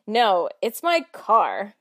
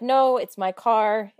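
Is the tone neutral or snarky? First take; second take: snarky; neutral. First: It is said in a snarky, mocking tone. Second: It is said in a plain, neutral tone.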